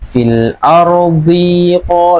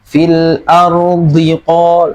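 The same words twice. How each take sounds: First: The 'di' is held long before 'qol'. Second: The 'di' is short, moving straight to 'qol'. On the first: The speaker calls it wrong. "nah jadi panjang dinya ya" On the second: The speaker calls it right. "langsung ke q ya"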